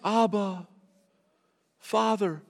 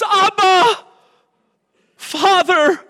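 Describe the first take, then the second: First: It is said calmly at normal volume. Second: It is cried out loudly and urgently. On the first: A quiet, composed address. The speaker calls it wrong. "He's not saying" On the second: A desperate cry for help. The speaker calls it right. "This is the kratzo, the cry"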